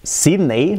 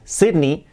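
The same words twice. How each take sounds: First: "Sydney" ending in "ey"; Spanish-style pronunciation. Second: "Sydney" as SID-nee; English pronunciation. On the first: Teacher giving the Spanish reading, hispanicized. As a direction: say "Sydney" as SID-ney. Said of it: "palabras que acaban en ey". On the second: Teacher giving the English reading, correct pronunciation. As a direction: end "Sydney" on "ee", not "ey". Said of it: "que es Sydney". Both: Shown as a demonstration.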